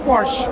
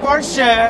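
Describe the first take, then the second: First: It is pronounced the American way. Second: It is pronounced the German way. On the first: "orang Amerika bilangnya Porsche" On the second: "itu Jerman"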